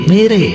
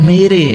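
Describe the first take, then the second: The two takes are said the same way.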